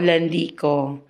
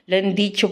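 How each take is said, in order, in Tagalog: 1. Ang huling pantig ay nagsisimula sa tunog na k. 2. Ang huling pantig ay nagsisimula sa tunog na ch. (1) "Hindi po ako Landico" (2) "Yun po ang tamang pronounce ng aking ipelyido"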